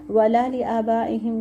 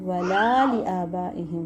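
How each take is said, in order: First: The vowel after the L is short. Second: The vowel after the L is drawn out long. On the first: The speaker calls it wrong. "नहीं" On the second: The speaker calls it right. "लाम को लाजिम लाजिम हमने लंबा करना है"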